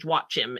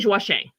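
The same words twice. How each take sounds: First: The name is pronounced with English sounds. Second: The name is pronounced with French sounds. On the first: "You you would say Joachim if you were trying to say it in English" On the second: "but Saint Joachim"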